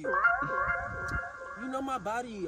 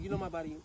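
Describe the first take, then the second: First: The phrase is said in a louder voice. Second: The phrase is said in a lowered voice.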